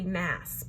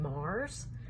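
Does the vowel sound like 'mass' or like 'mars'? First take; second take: mass; mars. First: The vowel is short, as in 'mass'. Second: The vowel is long, as in 'mars'. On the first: This is how the spelling looks to the speaker. "To me, that would be Mass" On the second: This is how the author wants it said. "I'm told we pronounce her last name Mars"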